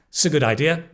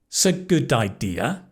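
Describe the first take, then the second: First: It is spoken quickly and connected. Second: It is spoken slowly and carefully. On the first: "And more quickly" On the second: "slowly with pauses"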